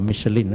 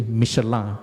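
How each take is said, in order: First: "Michelin" said English-style as MISH-uh-lin; anglicised pronunciation. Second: "Michelin" said French-style as mee-shuh-LAN; French pronunciation. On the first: Speaker shows listeners the rejected brand name, anglicised pronunciation. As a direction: end "Michelin" with a clear "lin", final n sounded. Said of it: "not Michelin". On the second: Speaker corrects the tire brand's name, French pronunciation. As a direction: end "Michelin" on an open nasal vowel, no final n. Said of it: "the right pronunciation is actually". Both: Shown as a demonstration.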